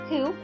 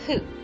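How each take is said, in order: First: The word begins with an h sound. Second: The word begins with an f sound. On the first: The speaker calls it wrong. "it is not pronounced hu" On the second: The speaker calls it right. "it is pronounced fu"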